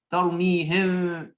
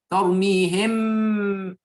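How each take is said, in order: First: The final m is soft, lips not closing. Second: The final m is full, lips fully closing. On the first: "ici c'est je n'ai pas touché les lèvres" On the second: "ici j'ai touché les lèvres et j'ai complètement prononcé le mime"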